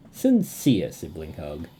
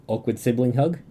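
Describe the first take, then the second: First: Slow, lower, sincere delivery; heartfelt, unhurried and low. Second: Lightly awkward, rising at the end; awkward, questioning lilt. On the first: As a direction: draw out "Sincere" and let the pitch fall. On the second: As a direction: read it with a touch of awkwardness, lifting on "hug". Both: Acted.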